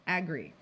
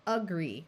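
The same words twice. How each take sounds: First: "agree" with a full short A at the start; unreduced first vowel. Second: "agree" with a weak "uh" at the start; schwa first syllable. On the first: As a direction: say "agree" as AG-gree, without the schwa. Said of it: "rather than agree". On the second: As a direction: say "agree" as uh-GREE, first vowel reduced. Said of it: "tends to schwa and sound like". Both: Shown as a demonstration.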